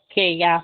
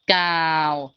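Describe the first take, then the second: First: The vowel is read as separate e and a. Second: The vowel is read as one long au. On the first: The speaker calls it wrong. "Jangan kita bacanya K E A atau Kea" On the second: The speaker calls it right. "kita bacanya jadi kata kau"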